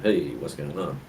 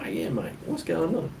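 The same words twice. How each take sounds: First: Said in the usual way. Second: High, played-up Australian reply; real Australian. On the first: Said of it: "you sound Australian, but not as". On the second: Traveller answering a curious local, real Australian. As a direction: answer as the hammed-up Aussie. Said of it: "go real Australian".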